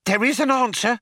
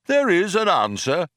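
First: High-pitched, excited wonder; breathless excitement. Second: Raised, lightly voiced oracle; computer pronouncement. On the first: A narrator's reading. Programmer Fook hears the computer can do it, breathless excitement. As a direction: gasp it out with excitement. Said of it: "said Fook with breathless excitement". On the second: Computer confirms to the programmers, lightly voiced pronouncement. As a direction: confirm it like a solemn machine.

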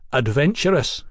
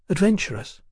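First: Said in the usual way. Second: ADVENTURESS higher, as a puzzled echo; questioning echo. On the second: A narrator's reading. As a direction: query the word ADVENTURESS in a raised pitch. Sybil queries the word back.

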